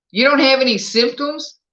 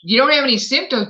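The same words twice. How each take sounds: First: "You don't have any symptoms?" asked with pitch rising at the end, stress on "dont"; rising question. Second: "You don't have any symptoms," said a bit fast, pitch falling, stress on "have"; falling statement. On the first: Host asks a positive viewer, rising in surprise. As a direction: ask "don't" with a lift of disbelief. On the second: Host restates the viewer's answer with a falling tune. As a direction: restate it flatly as a known fact before the next question. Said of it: "but do you feel bad?". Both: Real, not acted.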